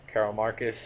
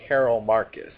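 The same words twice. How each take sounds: First: Said in the usual way. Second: Carol Marcus said louder, firmly fixing a slip; loud correction. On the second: Real, not acted. Catching her own slip about Carol Marcus, louder. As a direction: correct yourself with a firm push on Carol Marcus. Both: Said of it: "Did I really say that?".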